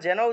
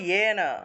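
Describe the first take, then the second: First: The word begins with a j sound. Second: The word begins with a y sound. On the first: The speaker calls it wrong. "যেন উচ্চারণ না করে" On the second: The speaker calls it right. "উচ্চারণ করব ইয়েন"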